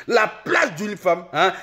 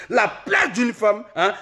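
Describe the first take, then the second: No difference in how they are said.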